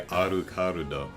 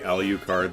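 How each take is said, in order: First: It is said with Japanese sounds and extra vowels. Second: It is said with English sounds, two l-like consonants. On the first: "they say Arukarudo" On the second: "When they say Alucard"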